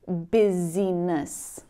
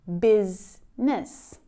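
First: The word is read out letter by letter, three syllables. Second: The word is said as two syllables, 'biz-ness'. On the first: The speaker calls it wrong. "trying to pronounce them, maybe saying busyness" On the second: The speaker calls it right. "pronounce it correctly"

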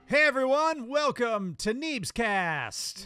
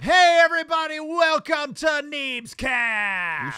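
First: It is said with fairly low energy. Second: It is said with very high energy.

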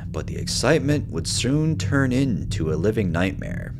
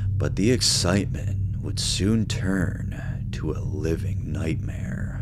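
First: It is read in a normal voice. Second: It is read in a put-on dramatic voice.

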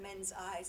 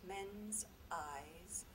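First: The two words are said quickly and run together. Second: The two words are said slowly and held apart. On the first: The image passes by unnoticed. The speaker calls it wrong. "I could say it like that, men's eyes, and it's gone" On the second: The listener feels the judging eyes. The speaker calls it right. "I can't say that fast"

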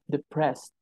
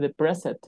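First: The -ed ending adds no extra syllable. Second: The -ed ending is said as its own syllable. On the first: The speaker calls it right. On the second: The speaker calls it wrong.

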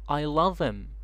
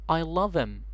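First: The h in 'him' is dropped. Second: The same.

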